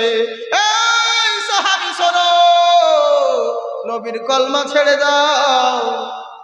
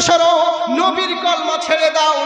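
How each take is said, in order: First: It is said slowly and drawn out. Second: It is said quickly without lingering.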